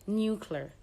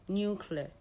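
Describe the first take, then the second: Both takes have the same delivery.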